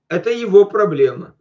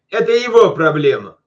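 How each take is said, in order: First: It is said in a caring, concerned tone. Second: It is said in a dismissive, indifferent tone. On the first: The speaker feels sorry for the other person. "С каким духом можно сказать" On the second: The speaker does not care about the other person. "типа, а мне наплевать на него"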